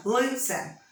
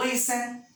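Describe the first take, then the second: First: "Listen" as LI-sen, strong first, weak last; stress on first syllable. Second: Said in the usual way. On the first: Shown as a demonstration. Teacher showing the phonetic intonation, stress on first syllable. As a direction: lean on LI in "Listen", let sen fall away. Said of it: "Olha a entonação fonética". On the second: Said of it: "Qual que não dobra?".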